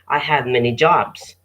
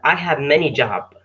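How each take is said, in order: First: The final s sound of jobs is pronounced. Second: The final s sound of jobs is dropped. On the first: The speaker calls it right. "So you say" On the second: The speaker calls it wrong. "You don't say"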